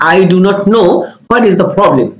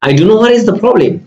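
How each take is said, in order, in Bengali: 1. 'Do not know'-এর প্রতিটি শব্দ পুরোপুরি বলা হয়। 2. 'Do not know' দ্রুত 'dunno'-তে সংক্ষেপ হয়ে যায়। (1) "আপনি যখন এই সেন্টেন্সটা বলতেছেন I do not know what is the problem আপনাকে এভাবে বলতে হবে" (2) "do not know এর contraction form ব্যবহার করছেন তখন বলবেন"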